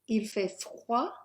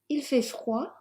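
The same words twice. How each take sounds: First: It is said at a slower, careful pace. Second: It is said quickly, at full natural speed.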